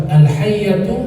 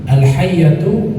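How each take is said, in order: The two takes are said the same way.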